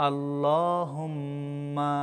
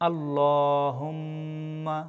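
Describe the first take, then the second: The two takes are said the same way.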